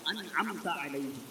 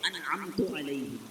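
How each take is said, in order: First: The verb ends with an 'a' vowel. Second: The verb ends with a 'u' vowel. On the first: The favor is bestowed by the one addressed. The speaker calls it right. "उन लोगों के रास्ते पर चला जिन पर तेरा इनाम हुआ" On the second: The speaker claims to have bestowed the favor. The speaker calls it wrong. "ता की जगह तू पढ़ ले"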